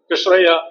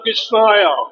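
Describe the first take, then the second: First: The name is said in a plain Tamil accent. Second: The name is said in a stressed British accent. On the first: "என் பேர் இயற் பேர் கிருஷ்ணய்யா" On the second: "பிரிட்டிஷ்காரன் எல்லாம் stress போட்டு தான் பேசுவார்கள்"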